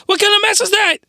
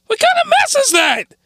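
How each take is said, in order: First: High, surprised pitch; pitched up in disbelief; voice going high. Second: Squeaky falsetto in shock; voice going high. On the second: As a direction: jump way up in disbelief. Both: Real, not acted. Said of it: "Sorry for the voice going high".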